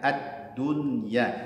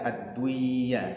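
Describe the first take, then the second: First: The n sound is pronounced clearly before the y. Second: The n sound is dropped before the y. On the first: The speaker calls it right. "tapi dibaca ad-dunya karena hukum bacanya adalah izhar" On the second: The speaker calls it wrong. "tidak dibaca ad-duya"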